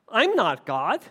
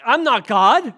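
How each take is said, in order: First: Said in the usual way. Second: Louder, mocking echo of a dodge; mock the host's evasive reply; mocking quote. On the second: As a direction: sneer it back as a lame excuse. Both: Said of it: "They go".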